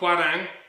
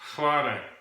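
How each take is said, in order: First: The word begins with a plain H-W sound. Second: The word begins with an F-like sound. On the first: The speaker calls it wrong. "So not Hwarang" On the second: The speaker calls it right. "It's actually pronounced with an F"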